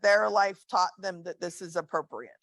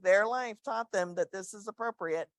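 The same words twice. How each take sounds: First: It is said in a sincere, earnest tone. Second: It is said in a condescending, mocking tone. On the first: The other person's behavior is genuinely understood. The speaker calls it right. "But the truth is" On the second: The other person's behavior is looked down on. The speaker calls it wrong. "You can say that in a pretty condescending way"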